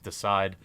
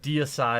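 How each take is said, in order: First: The name is said with two syllables. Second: The name is said with three syllables. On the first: The speaker calls it wrong. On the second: The speaker calls it right.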